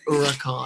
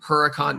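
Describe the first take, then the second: First: The name is said in an Italian way. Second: The name is said in an American way. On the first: The speaker calls it right. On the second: The speaker calls it wrong.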